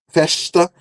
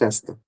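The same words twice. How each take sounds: First: The consonant before the t is a sh sound. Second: The consonant before the t is a z sound. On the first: "com som de che" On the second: "mais puxado para o Z"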